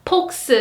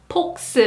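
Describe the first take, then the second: The two takes are said the same way.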